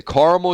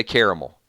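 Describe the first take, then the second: First: Caramel said as "CAR-mul"; two-syllable caramel. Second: Caramel said as "CARE-uh-mel"; three-syllable caramel. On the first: Host guesses what viewers expect him to say, caramel as "CAR-mul". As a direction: say caramel with an "ah", middle vowel dropped. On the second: Host offers the other option viewers expect, caramel as "CARE-uh-mel". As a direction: say caramel with an "air" vowel and full middle syllable. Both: Shown as a demonstration. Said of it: "I probably say both".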